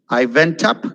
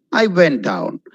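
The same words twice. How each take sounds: First: "up" lifted at the end; teacher showing a rise on "up"; rising tune on UP. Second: "down" dropped at the end; teacher showing a fall on "down"; falling tune on DOWN. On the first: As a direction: let the pitch climb on "up". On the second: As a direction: let the pitch sink on "down". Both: Shown as a demonstration.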